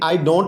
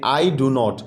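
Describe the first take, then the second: First: The contracted negative word carries no stress. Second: Both words after I carry stress. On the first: "second word के ऊपर, contraction के ऊपर stress नहीं है।" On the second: "दोनों words पर stress है"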